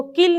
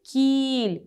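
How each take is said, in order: First: किल with a short, quick i; short vowel. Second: कील with the ee held long; teacher's stretched-out ee in कील; long vowel. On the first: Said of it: "इसको किल नहीं बोलेंगे". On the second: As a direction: draw out the ee in कील. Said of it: "इसको थोड़ा लंबा बोलेंगे". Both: Shown as a demonstration.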